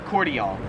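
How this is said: It is pronounced the Australian way. "whereas here in Australia, it's pronounced cordial"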